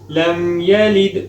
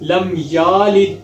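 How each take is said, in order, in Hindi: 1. 'y' के बाद का स्वर छोटा है। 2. 'y' के बाद का स्वर खींच कर लंबा पढ़ा जाता है।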